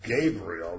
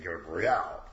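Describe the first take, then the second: First: The stress is on the first syllable. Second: The stress is on the last syllable. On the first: The speaker calls it wrong. "instead of saying Gabriel" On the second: The speaker calls it right. "we should be saying Gabriel, because that's the important part"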